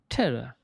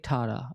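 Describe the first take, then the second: First: The word is said with its usual vowels. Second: The word is said with 'ta' vowels throughout. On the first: The speaker calls it right. "The pronunciation is really important here" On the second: The speaker calls it wrong. "Don't say tara"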